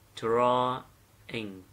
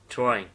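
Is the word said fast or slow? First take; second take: slow; fast. First: The word is said slowly. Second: The word is said quickly. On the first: "Nghe chậm nhé" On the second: "Khi mà đọc nhanh nó sẽ như này, các bạn nghe này, listen"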